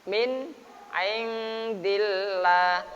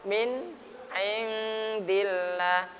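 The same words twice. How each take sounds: No difference in how they are said.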